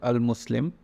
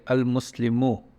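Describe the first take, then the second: First: The word ends on the 'm' consonant. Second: The word ends with a final 'u' vowel. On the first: "the last one is not pronounced" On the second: "it kind of becomes like al-Muslimu"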